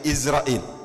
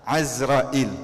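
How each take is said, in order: First: The first vowel is an 'i' sound. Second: The first vowel is an 'a' sound. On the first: This is the form people are used to saying. The speaker calls it wrong. "orang-orang sudah terbiasa panggil Izrail" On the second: This is the form the name properly has. The speaker calls it right. "Yang betul pakai fathah"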